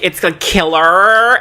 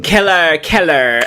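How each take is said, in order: First: "killer" drawn out slowly as a correction; correcting killer. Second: "killer" said wrong, dropping in pitch on the repeat; mispronounced killer. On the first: Coaching her on how to pronounce killer, slow correction. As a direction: model "killer" slowly, stretching the word. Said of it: "and we're like". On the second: Mimicking her when she kept saying killer, botched pronunciation. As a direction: imitate a failed attempt at "killer". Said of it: "she couldn't pronounce, like, killer". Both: Retold or imitated.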